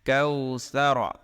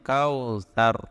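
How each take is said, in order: First: The word ends with a final vowel sound. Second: The word ends on a bare consonant. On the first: The recitation continues past this word. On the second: The recitation stops at this word.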